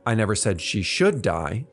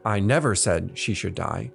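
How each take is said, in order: First: The stress falls on the word should. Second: The stress falls on the word never. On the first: It was not said to be deserved. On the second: It was never said at any time.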